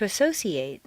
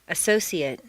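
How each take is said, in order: First: The last syllable has a full 'ay' vowel. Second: The last syllable has a weak reduced vowel. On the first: It is used as a verb. "a full a sound" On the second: It is used as a noun or adjective. "completely reduced to mt"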